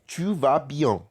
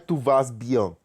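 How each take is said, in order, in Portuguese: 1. O S no final de 'vas' é mudo. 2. O S no final de 'vas' é pronunciado. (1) "É" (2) "Mas a gente não fala esse S. Não é"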